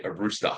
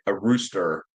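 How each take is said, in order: First: "rooster" ending in an open "ah"; Australian "rooster", R dropped at the end; non-rhotic pronunciation. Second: "rooster" with a clear final R; American-style "rooster", ending in "er"; American pronunciation. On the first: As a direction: say "rooster" without the final R. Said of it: "But I say a rooster". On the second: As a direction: sound the R at the end of "rooster". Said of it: "you guys would say". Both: Shown as a demonstration.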